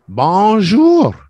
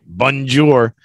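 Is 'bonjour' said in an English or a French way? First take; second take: French; English. First: It is said with a French pronunciation. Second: It is said with an English pronunciation. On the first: "Do you know how to say it in French?" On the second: "Bonjour is the English pronunciation of a French word"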